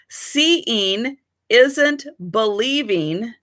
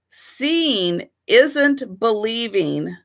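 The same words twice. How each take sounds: First: The words are spoken carefully, each clearly articulated. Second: The words are spoken casually, less clearly articulated. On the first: The speaker calls it right. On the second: The speaker calls it wrong.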